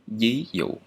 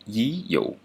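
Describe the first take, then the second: First: The first sound is a palatal Y-like sound. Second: The same.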